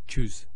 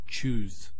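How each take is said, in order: First: The vowel is cut short. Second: The vowel is drawn out long. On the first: The speaker calls it wrong. "We don't say choose" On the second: The speaker calls it right. "It's choose"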